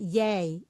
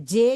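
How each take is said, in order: First: The letter is named the Dutch way. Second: The letter is named the Indonesian way. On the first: "Di sana Y" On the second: "Di Indonesia J"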